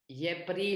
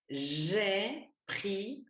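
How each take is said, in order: First: The J is said like an English y. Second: The J is said as a zh sound. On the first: The speaker calls it wrong. "prononcer le J comme un Y ... on ne dit pas" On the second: The speaker calls it right. "on dit"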